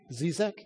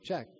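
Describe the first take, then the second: First: The name is said with two syllables. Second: The name is said with one syllable. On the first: The speaker calls it wrong. "I'm not even sure how you pronounce her last name" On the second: The speaker calls it right. "It's Czech"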